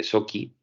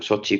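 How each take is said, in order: First: Sochi said as "SO-kee"; k sound in Sochi. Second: Sochi said as "SO-chee"; ch sound in Sochi. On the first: Podcaster unsure how the Russian city is said, Sochi as "Soki". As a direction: say Sochi with a hard k for the ch. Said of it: "o Sochi, como se pronuncia". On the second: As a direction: say Sochi with a ch as in cheese. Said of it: "no sé muy bien cómo se pronuncia". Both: Real, not acted.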